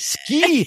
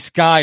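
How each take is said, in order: First: The vowel sounds like the 'ee' in key. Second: The vowel sounds like the 'eye' in sky. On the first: The speaker calls it right. "Sky is up there. It's SKY" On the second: The speaker calls it wrong. "I still shake my head every time someone called me Sky"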